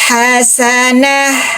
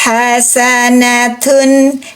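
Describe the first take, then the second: First: The word ends with an h sound. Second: The word ends with a clear n sound. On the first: The reading stops on this word. "tapi kalau kita wakop, ta marbuto diganti jadi ha sukun" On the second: The reading continues into the next word. "kalau kita baca wasol, suara ennya di ta marbuto, jelas"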